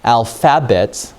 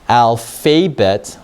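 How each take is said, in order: First: The second syllable has a short vowel sound. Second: The second syllable has a long vowel sound. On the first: "if it's a short vowel, this would be alphabet. That doesn't sound right" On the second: "Let me try long vowel in instead. That doesn't make any sense at all"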